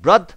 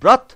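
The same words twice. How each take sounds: First: The final sound is a voiced 'd'. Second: The final sound is a breathy 'th'. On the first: "আবার এটাকে দ দিয়ে বলবো" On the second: "এটা দুবার পড়বো"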